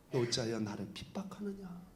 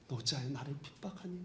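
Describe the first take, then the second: First: Low, much softer gentle question; gentle Jesus. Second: Low, soft tender question with a rise at 핍박하니; gentle Jesus. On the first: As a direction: ask it softly, without blame. Jesus speaks to Paul. (바울에게 묻는 예수님, 낮고 부드럽게) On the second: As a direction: ask it even more gently, like to a child. Jesus speaks to Paul, repeated. (핍박하니를 부드럽게 올리는 다정한 물음) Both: Retold or imitated.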